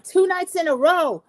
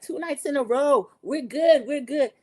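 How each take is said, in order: First: Mock cheer. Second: Mock cheering. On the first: Recapper mocks the celebration. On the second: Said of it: "Maura and Erica, like".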